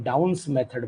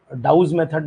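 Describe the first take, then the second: First: डाउन्स with a clear n before the final s; the name डाउन्स ending in -ns; preferred pronunciation. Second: डाउज with no n, ending in a z/j sound; the wrong form डाउज, nasal n left out; mistaken pronunciation. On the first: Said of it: "मैं डाउन्स method बोलता हूँ". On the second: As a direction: say डाउज, dropping the n. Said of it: "वो totally गलत है". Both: Shown as a demonstration.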